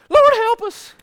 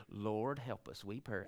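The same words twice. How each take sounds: First: Much higher and louder desperate cry; panic-mode plea. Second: Softer, lower, mild recital; tame reading. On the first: Retold or imitated. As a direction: scream it scared to death. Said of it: "I believe they was in panic mode". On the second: Shown as a demonstration. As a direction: read it meek and calm, as printed. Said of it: "I don't believe this is like we read it".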